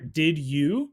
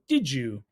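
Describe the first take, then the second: First: The two words are said separately and fully. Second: The words blend together into one sound, didjoo. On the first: "Two words there" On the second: "D I D J O O"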